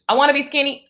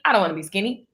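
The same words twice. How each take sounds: First: Lifted pitch, mock-insistent wanting; mock eager wish. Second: Dropped lower, dismissive about-face; mock refusal. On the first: Acting out flip-flop energy, mock eager wish. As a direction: punch it up as the wanting side. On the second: Acting out flip-flop energy, mock low refusal. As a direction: drop down for the contrary side.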